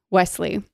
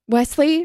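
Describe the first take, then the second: First: Said in the usual way. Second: WESLEY lifted high into a question; "Wesley" higher, rising at the end; questioning rise. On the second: Acted. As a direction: say "Wesley" as a high, feigned query. Lounging Buttercup feigns not knowing him.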